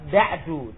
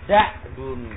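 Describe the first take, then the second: First: The word ends on a vowel, without n. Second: The word ends with a final n sound. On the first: "tidak ada tanwinnya" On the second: "Ada tanwinnya"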